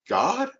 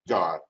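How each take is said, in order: First: It is said as an unsure question. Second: It is said firmly, with authority.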